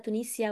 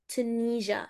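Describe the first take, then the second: First: The word ends with a 'sia' sound. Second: The word ends with a 'zha' sound. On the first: The speaker calls it wrong. "مش تونيجيا ولا تونيسيا" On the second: The speaker calls it right. "ال S I A دي بتنطق جا"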